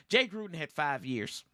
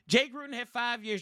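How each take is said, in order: First: Said in the usual way. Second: "Jay Gruden had five years" repeated higher, each word pressed, with "Jay" leading; said again with emphasis. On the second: Shown as a demonstration. Fan repeating a fact for doubting viewers, emphatic higher restatement. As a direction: lean on "Jay" and land every word like a point of fact. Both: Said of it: "Let's say it again for you".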